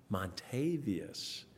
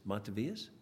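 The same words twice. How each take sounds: First: Slow, drawn-out "Montavious", stressed on TAY; "Montavious" with a long "ay" in the second syllable; corrected name stress. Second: Unsure "Montavious?" with a weak, short second syllable; "Montavious?" with the TAY reduced to "tuh"; mispronounced name. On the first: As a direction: say "Montavious" as mon-TAY-vee-us, slowly. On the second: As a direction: say "Montavious?" as MON-tuh-vee-us, questioning. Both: Real, not acted. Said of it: "wrong emphasis on the wrong syllable".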